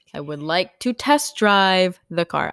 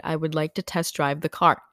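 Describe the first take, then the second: First: "I would like to test drive the car" slow, with weight on "test"; insistent repeat. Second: Said in the usual way. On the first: Retold or imitated. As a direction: spell it out slowly and firmly, leaning on "test". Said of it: "I mentioned that four other times". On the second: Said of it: "I said".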